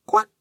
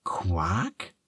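First: Short bright duck quack. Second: Whispered, sniffling "Quack?" with a rise; sniffly whisper. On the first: Duck's first quack. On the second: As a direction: whisper "Quack?" through tears, asking. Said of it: "schnieft Ferdinand". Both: A narrator's reading.

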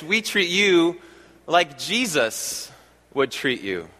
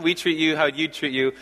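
First: "like Jesus" said very slowly, drawn out; slow emphatic. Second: Said in the usual way. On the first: Shown as a demonstration. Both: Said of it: "I'll say it like this".

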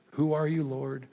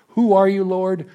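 First: Softer, drop it to a murmur; a private, hushed prayer; soft inward prayer. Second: Louder, higher, calling up to God; an urgent prayer cried aloud; fervent loud plea. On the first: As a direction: ask it quietly, to yourself. Second take of the prayer question. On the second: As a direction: cry it out high and loud. First take of the prayer question. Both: Shown as a demonstration.

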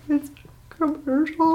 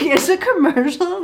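First: High, drawn-out mock-tearful wail; blubbery high-pitched whimper, hammed up; imitating sobbing. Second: High, disbelieving echo; imitating a baffled girlfriend; mock incredulity. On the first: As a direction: squeak it out through pretend sobs. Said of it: "sobbing, tears running down my face". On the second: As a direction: throw it back in pitched-up disbelief.

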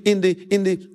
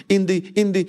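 The two takes are said the same way.

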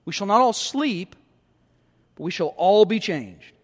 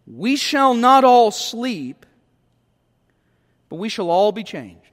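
First: Said in the usual way. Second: "We shall not all sleep" slow and louder, leaning on "not"; slow, weighty reading of the verse; solemn scripture reading. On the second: Shown as a demonstration. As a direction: intone the promise slowly, weight on "not". Reads verse, then repeats it.

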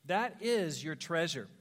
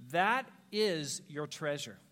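First: Slow repeat, stress on is; repeated for weight. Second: Slow, low and deliberate; slow emphasis. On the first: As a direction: press the word is gently. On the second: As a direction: let each word land slowly. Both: Shown as a demonstration.

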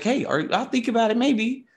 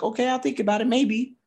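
First: High mimicking of her maybe; mocking echo. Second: High, lightly voiced hesitant woman; coy brush-off. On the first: Bar guy mimicking Lisa's maybe, high and mocking. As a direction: throw her words back at her. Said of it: "he's like". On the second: [name] answering a bar guy, high and coy. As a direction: shrug him off politely. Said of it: "She's like".

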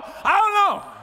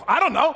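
First: "don't" yelled high and loud, falling off; high shouted I don't know. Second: Excited shout. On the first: Preacher shouting to the congregation, high and loud. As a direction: shout it up high, voice cracking with excitement. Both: Acted.

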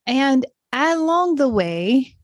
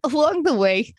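First: Slow, lilting hint of a British accent; accidental British accent. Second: Said in the usual way. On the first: Real, not acted. Host to listeners, words come out a little British by accident. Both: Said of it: "It sounded a little British there for a moment".

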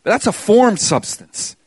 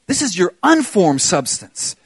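First: "formed" hit hard and drawn out; slow, emphatic "formed"; stress on formed. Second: "unformed" leaned on at its first syllable, "un"; slow, emphatic "UN" in "unformed"; stress on unformed. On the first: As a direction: punch the word "formed" in contrast. Contrasts formed with unformed substance. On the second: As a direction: punch the "un" in "unformed". Contrasts unformed with formed substance. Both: Real, not acted.

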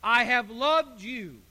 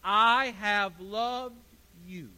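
First: "I have loved you" with "loved" slow and loud; stress on loved. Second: "I have loved you" slow, pushing "I"; stress on I. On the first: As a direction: lean hard on "loved". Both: Shown as a demonstration. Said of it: "says the Lord".

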